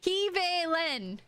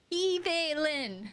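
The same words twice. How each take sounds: First: Slow careful Kivelin; slow try at the name. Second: Kivelin again slowly, stressed on Ki; careful Kivelin retry; second slow try at the name. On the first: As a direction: sound out Kivelin with care. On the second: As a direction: repeat Kivelin deliberately. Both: Shown as a demonstration. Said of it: "I keep wanting to say V".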